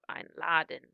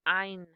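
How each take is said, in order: First: The stress is on the second syllable. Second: The stress is on the first syllable. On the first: The speaker calls it wrong. "instead of" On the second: The speaker calls it right. "you accent or emphasize or stress the prefix itself"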